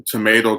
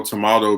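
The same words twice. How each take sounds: First: "tomato" said tuh-MAY-to. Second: "tomato" said tuh-MAH-to. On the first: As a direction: say "tomato" American style, MAY. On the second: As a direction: say "tomato" British style, MAH. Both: Shown as a demonstration. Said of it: "game of tomato, tomato".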